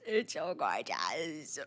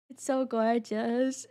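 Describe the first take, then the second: First: Much lower, soft and slow "It's so gorgeous."; low slow mock voice. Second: Said in the usual way. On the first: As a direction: drop into a low, slow murmur. Repeats line in a low voice.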